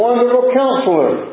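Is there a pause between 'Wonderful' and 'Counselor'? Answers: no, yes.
no. There is no pause after 'Wonderful'. Wonderful describes the Counselor. The speaker calls it wrong. "You've probably heard it read this way"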